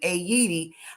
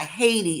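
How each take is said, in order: First: It uses the original native pronunciation. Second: It uses the common English pronunciation. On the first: The speaker calls it right. "it's actually pronounced a- Haiti" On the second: The speaker calls it wrong. "and not Haiti"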